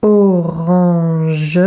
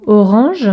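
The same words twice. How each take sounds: First: Drawn-out, lower "Orange"; slow dictation for copying; syllable by syllable. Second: Said in the usual way. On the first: Shown as a demonstration. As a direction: stretch "Orange" out with the final "ge" sounded. Slow dictation of word to copy.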